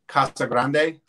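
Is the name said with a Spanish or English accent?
Spanish. It is said with a Spanish accent.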